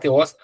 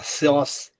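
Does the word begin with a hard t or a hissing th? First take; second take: hard t; hissing th. First: It begins with a hard t sound. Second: It begins with a hissing th sound. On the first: The speaker calls it wrong. "A gente fala Teos" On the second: The speaker calls it right. "mas na verdade é Theos"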